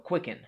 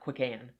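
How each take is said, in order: First: The second syllable has a reduced 'en' sound. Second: The second syllable has a full 'an' sound. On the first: The speaker calls it right. "So quicken" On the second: The speaker calls it wrong. "not quick-an"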